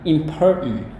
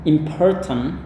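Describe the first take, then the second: First: The middle T sound is dropped. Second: The middle T sound is clearly pronounced. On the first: "itu gaya Amerika ya, T-nya nggak dilafalkan" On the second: "boleh Anda lafalkan"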